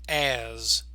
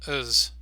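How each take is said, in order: First: The vowel is said fully and clearly. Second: The vowel is short and weak. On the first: "the full form" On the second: "the reduced form"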